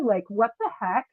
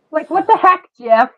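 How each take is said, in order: First: Said in the usual way. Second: "what the heck" exclaimed high and loud; calling out, exclaimed. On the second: Real, not acted. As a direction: call the line out to Jeff. Repeated louder, higher to Jeff.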